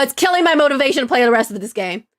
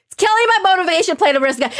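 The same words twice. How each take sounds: First: Said in the usual way. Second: Fast, higher-pitched exasperated rush; worked-up complaint. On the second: Real, not acted. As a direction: rattle it out higher, getting worked up. Repeats complaint, more worked up.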